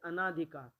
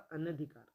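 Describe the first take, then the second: First: A long 'aa' vowel follows 'an'. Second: A short vowel follows 'an'. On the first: The speaker calls it wrong. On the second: The speaker calls it right.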